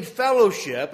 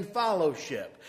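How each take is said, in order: First: FELLOWSHIP with a short "eh" first vowel; standard fellowship. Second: FELLOWSHIP with an "ah" in the first syllable, "FOLLOW-ship"; said as followship. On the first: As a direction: say fellowship as "FELL-oh-ship". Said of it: "I'm not saying fellowship". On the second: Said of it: "I'm saying fellowship". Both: Shown as a demonstration.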